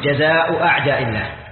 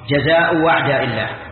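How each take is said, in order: First: The second word begins with a glottal stop. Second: The second word begins with a w sound. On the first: "الأولى تحقيق الهمزة" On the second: "والثانية قلبها واوا"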